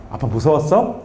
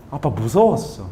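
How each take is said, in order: First: Low voice with 무서웠어 rising into a question; gentle echo question. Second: Low, hushed statement with falling 무서웠어; subdued child's confession. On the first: Father checking with crying son, 무서웠어 rising gently as question. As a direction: ask it back, lifting the end of 무서웠어. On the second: Crying son answers dad, 무서웠어 falling in subdued confession. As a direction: let 무서웠어 drop as a quiet admission. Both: Retold or imitated.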